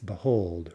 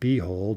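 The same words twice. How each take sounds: First: The stress is on the second syllable. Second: The stress is on the first syllable. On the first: The speaker calls it right. "it's behold, right? Behold. Stress on the second syllable" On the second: The speaker calls it wrong. "it's not behold"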